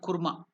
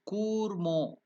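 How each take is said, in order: First: The u vowel is short. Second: The u vowel is held long. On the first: The speaker calls it wrong. "It is not Kurma" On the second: The speaker calls it right. "the U is to be elongated"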